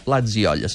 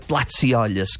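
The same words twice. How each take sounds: First: The s before 'i' is voiced, like buzzing. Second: The s before 'i' is voiceless, like hissing. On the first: The speaker calls it right. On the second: The speaker calls it wrong. "faria aquest so sord i diria plats i olles, que no és la manera correcta"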